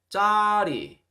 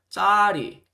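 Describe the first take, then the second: First: The first consonant is tense and tight. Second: The same.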